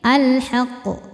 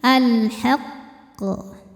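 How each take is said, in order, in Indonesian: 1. Huruf q langsung dilepas tanpa ditahan. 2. Huruf q ditekan dan ditahan dulu sebelum dilepas. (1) "kalau nggak ada tasydid" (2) "Kalau ini"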